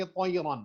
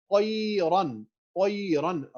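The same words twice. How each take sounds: First: قیرن with the noon hummed through the nose; wrong nasal way. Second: قیرن with the noon said clearly, no nasal hum; teacher demonstrating قیرن with a crisp clear noon. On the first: Teacher showing students the wrong nasal version. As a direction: show the nasal ghunna mistake on قیرن. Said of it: "ایسے نہیں کہیں گے". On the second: Quran teacher to students, clear noon from the mouth. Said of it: "نون clearly ادا کریں گے". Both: Shown as a demonstration.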